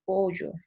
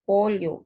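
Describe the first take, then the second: First: "pollo" pronounced the Lima way, ll like y; Lima pronunciation. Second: "pollo" with a clear lateral ll, pol-yo, said louder; "pollo" stressing the ll as l plus y; provincial pronunciation. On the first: Teacher showing students how Limeños say "pollo" with a y sound. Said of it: "Ellos dicen calle". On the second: Teacher showing students how provincial Peruvians say "pollo" with a true ll. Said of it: "nosotros los provincianos decimos calle". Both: Shown as a demonstration.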